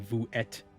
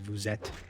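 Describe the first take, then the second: First: The s of vous is silent before êtes. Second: The s of vous links into êtes. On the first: The speaker calls it wrong. "You wouldn't say" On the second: The speaker calls it right. "It kind of gets carried over into the next word"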